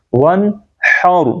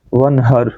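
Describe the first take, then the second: First: "ون ہاؤ" slow with tight throaty h and heavy r; correct haa. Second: Light h and short vowel in "ون ہر"; usual mistake. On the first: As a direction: push the h of "ون ہاؤ" from mid-throat. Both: Shown as a demonstration. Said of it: "ہم کیا پڑھتے ہیں".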